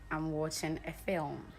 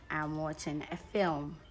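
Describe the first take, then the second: The two takes are said the same way.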